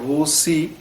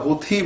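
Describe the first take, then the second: First: The middle consonant is a plain s sound. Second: The middle consonant is an aspirated t sound. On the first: "দন্তা স দিয়ে বলছে" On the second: "থ দিয়ে"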